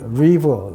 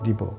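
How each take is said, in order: First: It starts with an English r sound. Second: It starts with a Korean flap sound. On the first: The speaker calls it right. "강을 리버 리버 이래야 되는데" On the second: The speaker calls it wrong. "외래어 표기법은 리버라고 쓰는 리버"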